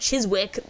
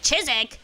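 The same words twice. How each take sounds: First: Every letter is sounded as it is written. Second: It is said differently from how it's written. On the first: The speaker calls it wrong. "I said Chiswick" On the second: The speaker calls it right. "then it said Chiswick"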